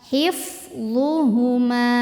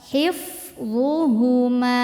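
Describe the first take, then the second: No difference in how they are said.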